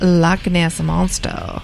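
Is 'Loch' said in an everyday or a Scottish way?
everyday. Loch is said in a plain everyday accent.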